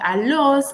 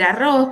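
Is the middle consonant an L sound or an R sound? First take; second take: L sound; R sound. First: The middle consonant is an L sound. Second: The middle consonant is a rolled R sound. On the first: The speaker calls it wrong. "porque dice alos" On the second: The speaker calls it right. "no puede decir arroz"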